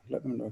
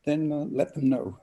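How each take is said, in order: First: A gentle trailing repeat of let them know; soft echo. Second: Said in the usual way. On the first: Real, not acted. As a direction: let them know, dropped much softer. Repeated advice, softer echo.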